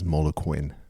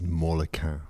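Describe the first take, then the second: First: The name is said with American pronunciation. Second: The name is said with French pronunciation. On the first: This is how people in the US say it. "much easier to pronounce as Molequin" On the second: This is the brand's intended name. "the correct pronunciation of the brand is Molequin"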